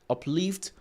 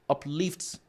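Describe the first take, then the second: Both takes have the same delivery.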